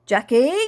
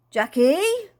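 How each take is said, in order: First: Loud call from outside; first searching shout of a name. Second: Louder, high, drawn-out call; high rising holler from outside; insistent calling. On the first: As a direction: call for someone, loud, rising at the end. Voice calling from outside. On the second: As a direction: sing the name out with a long upward sweep. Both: A narrator's reading.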